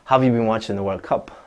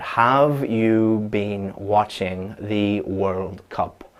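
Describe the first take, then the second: First: The small words are weakened with reduced vowels. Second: Every word is said fully with full vowels. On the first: It sounds natural. The speaker calls it right. "how does a native English speaker say that?" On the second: It sounds strange and robotic. The speaker calls it wrong. "that robotic, formal, saying every single word"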